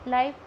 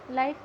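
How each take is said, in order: Both takes have the same delivery.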